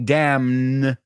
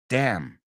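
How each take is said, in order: First: The final N sound is pronounced. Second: The final N sound is silent. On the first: The speaker calls it wrong. "I didn't say damn because the N silent" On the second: The speaker calls it right. "the N silent"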